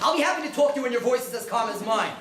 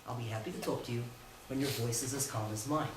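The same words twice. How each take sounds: First: The voice is emotional and agitated. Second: The voice is calm and even. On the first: The speaker calls it wrong. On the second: The speaker calls it right.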